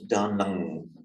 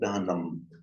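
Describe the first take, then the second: First: The word ends with an ng sound. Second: The word ends with an m sound. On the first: "they pronounce da nang with a ng sound" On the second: "indistinguishable from an, an ordinary M"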